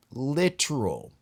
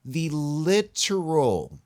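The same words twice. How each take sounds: First: Literal repeated, slow and falling; slow echo of literal. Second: Literal, drawn out slowly and high; slowly stressed literal; emphatic literal. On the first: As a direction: say literal again, slowly. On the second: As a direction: stretch out literal for weight. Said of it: "founding ideas ... were". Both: Real, not acted.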